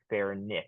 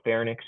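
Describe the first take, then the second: First: It is said slowly, every syllable enunciated. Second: It is said quickly, the syllables run together. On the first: The speaker calls it wrong. "you don't want to enunciate" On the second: The speaker calls it right. "just say it really quickly"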